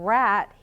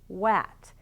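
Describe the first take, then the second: First: The word begins with an R sound. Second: The word begins with a W sound. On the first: The speaker calls it right. "instead of saying rat" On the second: The speaker calls it wrong. "he says wat"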